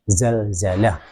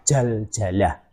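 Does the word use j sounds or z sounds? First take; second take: z sounds; j sounds. First: The word is said with z sounds. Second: The word is said with j sounds. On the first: The speaker calls it right. "Zalzalah itu pakai huruf Z" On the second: The speaker calls it wrong. "bukan jaljalah"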